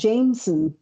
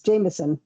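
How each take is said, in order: First: The name is pronounced just as it is spelled. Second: The name is pronounced in its usual spoken form. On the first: The speaker calls it wrong. "It's spelled Jameson. Nobody pronounces it like that" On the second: The speaker calls it right. "It's Jameson"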